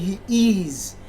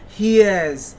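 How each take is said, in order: First: The two words are said fully and separately. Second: The two words are run together into one syllable. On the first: "Instead of saying" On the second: "to use natural English accent and say"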